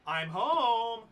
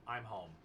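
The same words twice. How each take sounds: First: It is said in a cheery voice. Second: It is said in a flat, sad voice.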